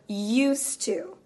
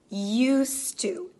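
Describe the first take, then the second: The two takes are said the same way.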